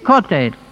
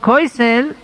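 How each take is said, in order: First: The vowel is o and the consonant is t. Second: The vowel is oy and the consonant is s. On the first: "sagen sie" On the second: "wie wir sagen"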